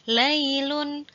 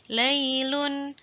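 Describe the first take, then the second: Both takes have the same delivery.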